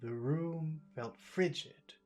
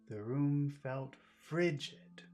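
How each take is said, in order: First: Both room and frigid carry strong stress. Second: Only frigid carries strong stress. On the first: "Let's focus on room too" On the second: "So let's focus on fri"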